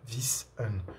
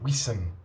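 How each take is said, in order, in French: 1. Le mot commence par un son V. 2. Le mot commence par un son W. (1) "C'est pas Wissen" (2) "c'est Wissen"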